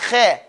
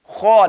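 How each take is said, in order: First: The kha is thin, with open lips. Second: The kha is heavy, with rounded lips. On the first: The speaker calls it wrong. "not kha" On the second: The speaker calls it right. "the proper way to say this sound is when you hear kha... Round mouth"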